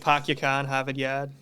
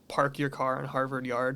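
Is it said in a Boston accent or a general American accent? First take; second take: Boston; general American. First: It is said in a Boston accent. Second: It is said in a general American accent.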